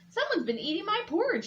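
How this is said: A deep, gruff growling voice.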